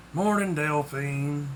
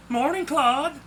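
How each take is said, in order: First: Slow, slightly deep grumbled greeting; weary, drawn-out reply with a touch of depth. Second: Bright, high, lifted cheery hello; chirpy, higher-pitched woman's greeting. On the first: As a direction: answer slowly in a mildly deepened voice. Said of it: "he said in a deep voice". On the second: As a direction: call out a cheerful morning greeting. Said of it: "a cheery voice said". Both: A narrator's reading.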